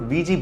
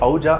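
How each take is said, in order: First: The word is said as two syllables, 'wee-jee'. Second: The word is said as two syllables, 'oo-ja'. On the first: The speaker calls it right. "వీజీ boards అని pronounce చేయాలి" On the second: The speaker calls it wrong. "ఔజా అని pronounce చేయకూడదు"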